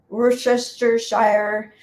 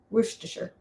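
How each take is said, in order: First: The last syllable sounds like shire. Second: The last syllable sounds like sure. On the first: The speaker calls it wrong. "it looks like Worcestershire" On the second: The speaker calls it right. "it's kind of sure"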